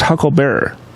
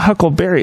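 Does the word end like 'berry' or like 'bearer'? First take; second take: bearer; berry. First: The word ends with a 'bearer' sound. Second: The word ends with a 'berry' sound. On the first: The speaker calls it right. "It's Hucklebearer" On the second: The speaker calls it wrong. "It's not Huckleberry"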